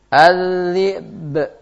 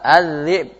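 First: The final b ends with an echoing bounce. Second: The final b stops flat with no bounce. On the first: The speaker calls it right. "Dia harus dikol-kolahkan" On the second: The speaker calls it wrong. "Mana kol-kolahnya? Enggak ada"

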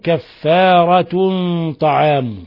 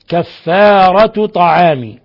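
First: The first word ends with an n sound. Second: The first word ends without an n sound. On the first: The second word explains the first. "تنوين التاء ورفع الميم من طعام" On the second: The two words are read as a possessive construction. "برفع التاء من غير تنوين وجر الميم"

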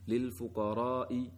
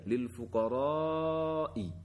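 First: The long vowel in fuqara is held only briefly. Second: The long vowel in fuqara is held extra long. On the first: The speaker calls it wrong. "Sudah panjang tetapi kurang panjang" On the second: The speaker calls it right. "mestinya kata lil fuqara'i dibaca demikian"

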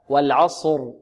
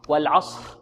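First: The final r is voiced with vibrating vocal cords. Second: The final r is whispered without voice. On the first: The speaker calls it right. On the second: The speaker calls it wrong.

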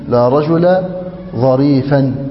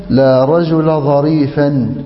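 Both takes have the same delivery.

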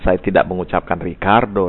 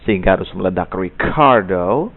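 First: The k sound has no puff of air. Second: The k sound has a strong puff of air. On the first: The speaker calls it wrong. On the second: The speaker calls it right. "karena ada bunyi K, sehingga harus meledak"

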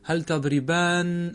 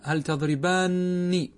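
First: The final nun ends with an 'a' vowel. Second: The final nun ends with an 'i' vowel. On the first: It could be mistaken for addressing one person. The speaker calls it wrong. "لو فتحتها ستقول" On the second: It clearly addresses two people. The speaker calls it right. "أنت في الصوت تسمعها هكذا"

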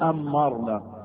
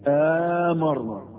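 First: The m is doubled and the first vowel short. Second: The m is single and the first vowel long. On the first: "تشديد الميم" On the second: "تبقى همزة المد"

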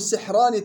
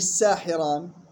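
First: The first syllable has a short i vowel. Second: The first syllable has a long ā vowel. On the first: The speaker calls it right. "كسر السين وإسكان الحاء" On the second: The speaker calls it wrong. "مش ساحران"

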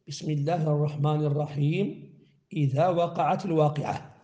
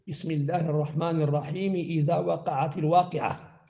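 First: There is a pause after الرحيم. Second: الرحيم runs straight into the next words. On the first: "الوقف على آخر التعوذ وهو الرجيم، وعلى آخر البسملة وهو الرحيم" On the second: "الوقف على التعوذ ووصل البسملة بأول السورة"

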